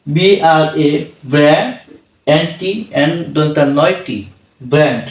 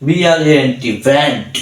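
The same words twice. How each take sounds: First: brand spelled piece by piece with pauses; teacher's segmented spell-out of brand; broken-up spelling. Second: Letters of brand run together without breaks; one connected spell-out of brand. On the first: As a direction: break brand into parts, naming each letter. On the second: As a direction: spell straight through, then say brand whole. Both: Shown as a demonstration. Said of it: "আমরা একভাবে পড়তে পারতাম".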